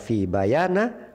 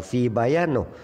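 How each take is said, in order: First: The word ends with an a vowel. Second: The word ends with an o vowel. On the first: "tidak dibaca fi bayana" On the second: "atau fi bayano"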